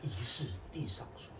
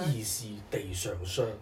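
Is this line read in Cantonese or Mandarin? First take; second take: Mandarin; Cantonese. First: The line is read in Mandarin pronunciation. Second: The line is read in Cantonese pronunciation. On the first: "那是真国语。" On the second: "那广东话呢？"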